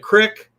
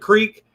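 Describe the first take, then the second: First: It is said with a short vowel, Southern style. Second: It is said with a long vowel, his own style.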